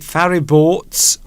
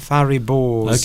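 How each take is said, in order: First: The name ends with a ts sound. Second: The name ends with a plain z sound. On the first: "I've been putting a T apostrophe S" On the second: "So maybe it's just Fariboors"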